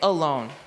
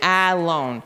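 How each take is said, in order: First: The first vowel is a reduced 'uh' sound. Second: The first vowel is a full 'ah' sound. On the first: The speaker calls it right. "They would say alone. And that's a schwa, that uh" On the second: The speaker calls it wrong. "The uh doesn't say ah. We wouldn't read it alone"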